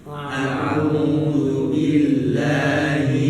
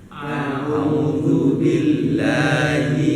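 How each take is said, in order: No difference in how they are said.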